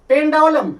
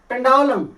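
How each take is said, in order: No difference in how they are said.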